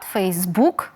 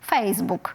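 First: The stress is on the last syllable. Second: The stress is on the first syllable. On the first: This is how it is said in Ukrainian. "наголос на останній склад" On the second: This is how English speakers say it. "усі англомовні люди наголошують"

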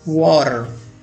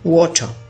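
First: It is said in an American accent, with the r. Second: It is said in a British accent, without the r.

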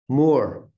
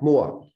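First: It is said with the final R pronounced. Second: It is said in a Boston accent, R dropped.

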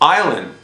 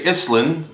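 First: The word is said with no 's' sound in the middle. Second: The word is said with an 's' sound in the middle. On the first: The speaker calls it right. "The S is silent" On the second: The speaker calls it wrong. "we don't say Island"

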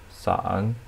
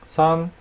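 First: The pitch dips low, then rises. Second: The pitch stays high and level.

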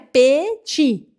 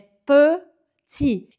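First: The first vowel is a Portuguese-like vowel. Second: The first vowel is a French-only vowel. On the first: The speaker calls it wrong. "Não é petit" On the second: The speaker calls it right. "Esse som e, e, que não existe"

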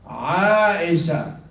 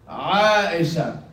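No difference in how they are said.

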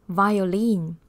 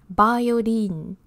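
No difference in how they are said.

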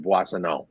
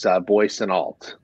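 First: The name has a softer French pronunciation. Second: The name has an American pronunciation. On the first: "the French version is a little softer" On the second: "The Americanized version is"

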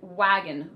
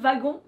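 First: The word begins with a W sound. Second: The word begins with a V sound. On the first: "So the first word is simply the word wagon" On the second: "because the W is actually pronounced like a V in French"

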